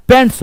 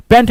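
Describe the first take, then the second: First: पैंट्स with a clear final s, /peɳʈs/; पैंट्स ending on a crisp s sound; correct plural form. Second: पैंट said without the final s, /pẽɳʈ/; पैंट ending flat on the t, no s; wrong singular form. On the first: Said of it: "पैंट नहीं होता है". (पैंट्स, अंत में साफ़ स के साथ) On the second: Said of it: "पैंट्स होता है". (पैंट बिना स के, गलत रूप) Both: Shown as a demonstration.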